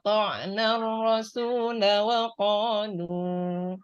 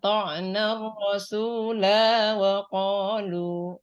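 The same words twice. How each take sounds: First: The final vowel of rasula is kept short. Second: The final vowel of rasula is held long. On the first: The speaker calls it right. "kalau dibaca wasol, maka eh, lanya dibaca pendek" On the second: The speaker calls it wrong. "kalau nggak tahu ini maka tetap akan dibaca panjang"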